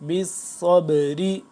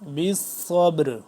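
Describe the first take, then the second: First: The phrase ends with a short vowel. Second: The phrase ends on a consonant. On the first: The reading continues without stopping. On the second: The reader stops on this word.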